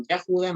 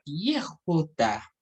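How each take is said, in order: First: Yehuda said with "ya" for the first syllable; incorrect pronunciation. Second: Yehuda said slowly, opening with a clear "ye"; correct Hebrew pronunciation. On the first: Teacher citing the mistaken form, Yehuda as "Yahuda". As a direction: open Yehuda on "ya" instead of "ye". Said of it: "la pronunciación Yehuda no es correcta". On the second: Teacher showing students the pronunciation, slow careful Yehuda. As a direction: sound out Yehuda carefully, "ye" first. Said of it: "Y se va a pronunciar". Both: Shown as a demonstration.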